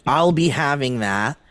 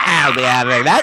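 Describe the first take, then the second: First: Said in the usual way. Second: Loud, laughing goblin voice. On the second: Retold or imitated. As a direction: growl it like a greedy goblin. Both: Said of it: "in my goblin voice".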